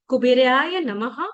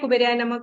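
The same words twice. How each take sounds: First: The phrase is said slowly and calmly. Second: The phrase is said quickly. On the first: The speaker calls it right. "इसको आराम-आराम से बोलना है" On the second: The speaker calls it wrong. "इसको fast नहीं करना है, ऐसे नहीं बोलना है"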